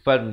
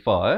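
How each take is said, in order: First: The syllable ends with an n sound. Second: The syllable ends on an open vowel. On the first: The word is read on without stopping. "Saya wakaf di situ" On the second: The reader stops on this word. "Fan menjadi fa eh"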